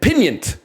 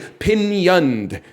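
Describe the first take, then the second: First: The word ends with a clipped t sound. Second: The word ends with a soft d sound. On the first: This copies the computer voice's pronunciation. The speaker calls it wrong. "She said pinioned. Like instead of turned, she said turnt" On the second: This is the expected pronunciation. The speaker calls it right. "She did not say pinioned"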